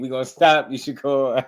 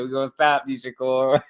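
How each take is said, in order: First: High mock threat through laughs; teasing imitation while laughing; imitating the threat again. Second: Higher mock tough talk; imitating the threat. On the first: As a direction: parrot the threat, cracking up. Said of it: "That don't even sound believable". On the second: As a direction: echo the threat with a smirk. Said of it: "He said".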